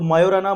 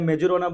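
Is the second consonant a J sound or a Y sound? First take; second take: Y sound; J sound. First: The j is pronounced as a y sound. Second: The j is pronounced as a j sound. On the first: "इसमें जे जो है वो silent रहता है" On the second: "जो बोलना है बोल दो आप"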